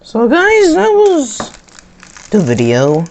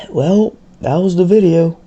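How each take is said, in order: First: Loud, high, bursting outro; excited outro. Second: Dry, sarcastic sign-off after a sigh. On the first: Real, not acted. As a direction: shout the sign-off with energy. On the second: Acted. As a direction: say it with eye-rolling sarcasm. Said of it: "I'll just very sarcastic".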